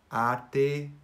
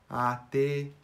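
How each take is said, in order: First: The two words are joined as one word. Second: The two words are joined as one word.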